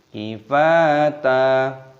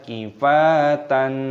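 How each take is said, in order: First: The word ends with a lengthened a vowel. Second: The word ends with an n sound. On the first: The speaker calls it right. "tapi kifata" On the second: The speaker calls it wrong. "Jangan dibaca kifatan, salah"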